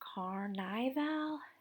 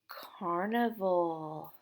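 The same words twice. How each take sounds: First: The second syllable has a long 'eye' vowel. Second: The second syllable has a short 'i' vowel. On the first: The speaker calls it wrong. "it makes it say nigh" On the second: The speaker calls it right. "it makes it say niv"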